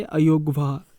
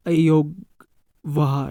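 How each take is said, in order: First: Said in the usual way. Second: अयोगवाह stretched out syllable by syllable; new term said slowly. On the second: Shown as a demonstration. (अयोगवाह धीरे-धीरे बोलकर सिखाना) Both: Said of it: "इन्हें हम कहते हैं".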